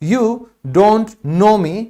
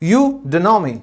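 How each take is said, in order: First: "Don't know" is said in full, with the t. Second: "Don't know" is reduced to "do no".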